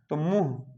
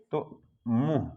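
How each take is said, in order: First: Said in the usual way. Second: मुंह said slowly and softly, the nasal vowel drawn out; slow careful demo. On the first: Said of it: "जैसे मुंह लिखना है". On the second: Shown as a demonstration. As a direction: spell out मुंह slowly, letting the nasal ring. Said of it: "सिरोरेखा के नीचे ये मात्रा लगी है". (मुंह को धीरे और नाक से खींचकर बोलें)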